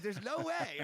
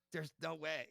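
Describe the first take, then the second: First: Higher, louder, can't-believe-it squeal; a freelancer reacting to his own thirty grand quote, higher and louder in disbelief; stunned disbelief. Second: Said in the usual way. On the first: Telling the host how he reacted to sending a thirty grand proposal, squealing in disbelief. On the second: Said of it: "And I was like".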